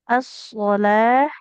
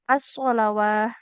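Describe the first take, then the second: First: The waw is silent, ending in a long ah. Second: The waw is pronounced, ending in awah. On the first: The speaker calls it right. "Yang dikata as-sholah" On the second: The speaker calls it wrong. "tidak boleh dibaca"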